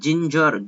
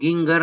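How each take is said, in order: First: The word begins with a soft j sound. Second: The word begins with a hard g sound. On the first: The speaker calls it right. "उसको ज पढ़ना है" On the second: The speaker calls it wrong. "गिंगर नहीं पढ़ सकते"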